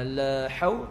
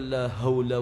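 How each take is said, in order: First: The h is a harsh sound from the throat. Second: The h is a light, breathy sound. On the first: The speaker calls it right. "dengan huruf ha" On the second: The speaker calls it wrong. "jangan dia baca"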